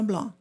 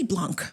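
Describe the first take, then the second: First: The word ends without any k sound. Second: The word ends with an audible k sound. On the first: The speaker calls it right. "take the C off. That k sound is gone" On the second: The speaker calls it wrong. "just don't say blanc"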